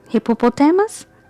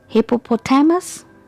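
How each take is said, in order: No difference in how they are said.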